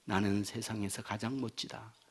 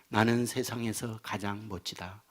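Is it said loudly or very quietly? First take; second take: very quietly; loudly. First: It is said in a tiny, faint voice. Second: It is said in a clear, normal voice.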